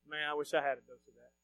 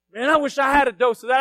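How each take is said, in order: First: Low, very soft aside; secret wish. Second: Raised, open-voiced wish; wish said out loud. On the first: Acted. Listener privately envying a fired-up preacher, hushed secret wish. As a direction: say it under your voice, as if to yourself. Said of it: "you're not gonna tell anybody". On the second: Preacher admitting his old envy to the congregation, wish said aloud. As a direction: say it aloud for everyone to hear.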